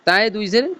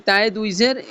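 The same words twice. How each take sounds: The two takes are said the same way.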